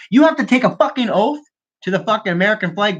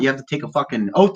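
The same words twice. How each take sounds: First: Much higher, worked-up repeat; indignant insistence. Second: Said in the usual way. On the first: Real, not acted. Ranting about a politician's dual citizenship, indignantly insistent. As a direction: drive the point home, pitch jumping up.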